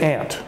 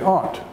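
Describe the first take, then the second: First: It is said in the speaker's own American way. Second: It is said in an English way. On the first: "So I say aunt" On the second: "if um, you are recently from England, you would say aunt"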